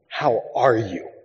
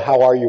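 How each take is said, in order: First: It is asked in a slow, earnest way. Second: It is asked in a quick, casual way.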